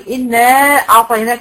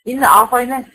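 First: The vowel ending the first word is held long. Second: The vowel ending the first word is kept short. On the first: "وبنمد أربعة" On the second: "في قراءات تانية بتبقى بالقصر"

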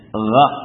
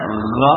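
First: The gh sound is soft and gentle. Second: The gh sound is exaggerated and forceful. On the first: The speaker calls it right. "Mengucapkannya itu dengan lembut" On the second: The speaker calls it wrong. "terlalu berlebihan juga tidak ya"

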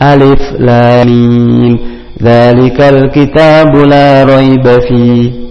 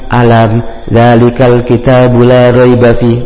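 First: The opening letters are named one by one. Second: The opening letters are blended into one word. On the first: The speaker calls it right. "Bukan, tapi" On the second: The speaker calls it wrong. "Jangan dibaca nam alam"

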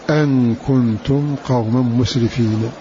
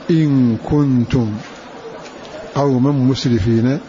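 First: The first word begins with an 'a' vowel. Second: The first word begins with an 'i' vowel. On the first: It gives a reason. "الباقون قرأوا بفتحها" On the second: It states a condition. "بكسر همزة إن"

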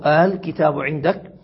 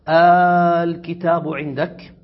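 First: The opening glottal stop is softened, between hamza and alif. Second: The opening vowel is a long, drawn-out alif. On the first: "ويجوز تسهيلها وهو أن ينطق بها بين الهمزة والألف" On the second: "بل تبدل همزة الوصل ألفا ممدودة وتمد إشباعا"

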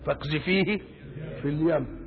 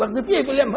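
First: It is said softly and calmly, unhurried. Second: It is said quickly and forcefully, with haste. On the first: The act is done with tender care. The speaker calls it wrong. "مش هتحطه بحنان كده رايق ... مش كده" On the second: The act must be done at once in danger. The speaker calls it right. "العجلة حتى في اللفظ"

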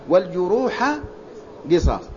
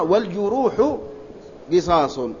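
First: The word for wounds ends in an a vowel. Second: The word for wounds ends in a u vowel. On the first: "هذه قراءة بالنصب" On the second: "وقراءة أخرى"

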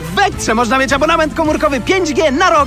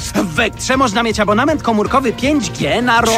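First: It is said with much more enthusiasm. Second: It is said in a calm, plain way. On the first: The speaker calls it right. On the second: The speaker calls it wrong.

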